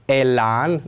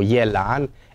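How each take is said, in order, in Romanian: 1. Începe cu vocala e simplă. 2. Începe cu un y glisat înaintea lui e. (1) "La fel vom spune și elan" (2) "nu elan"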